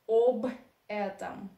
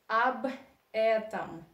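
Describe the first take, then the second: First: The first vowel sounds like a full 'o'. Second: The first vowel sounds like a reduced 'a'. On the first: The speaker calls it wrong. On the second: The speaker calls it right. "«о» unstressed you pronounce like «а». That's why you say"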